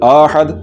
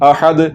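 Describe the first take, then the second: First: The first vowel is lengthened into a long a. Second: The first vowel is kept short. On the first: The speaker calls it wrong. "ज़बर को लंबा नहीं करना, वगरना ये अलिफ की आवाज़ पैदा हो जाएगी और ये गलत है" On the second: The speaker calls it right. "लंबा नहीं करना, और इसको पढ़ना है अहद"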